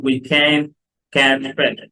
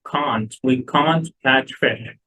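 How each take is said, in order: First: "can" said the American way with a stretched vowel and no t sound; نطق can الأمريكي، بمد الحرف بدون تي. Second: British accent, "can't" said with a long broad ah; British accent demo of can't. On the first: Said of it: "في الأمريكان accent ما نقولش تي". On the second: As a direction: show the British "can't" with an open ah, the t kept. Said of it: "هي British can't". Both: Shown as a demonstration.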